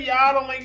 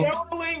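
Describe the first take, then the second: First: It is said in a Southern US accent. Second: It is said the way the Swiss say it.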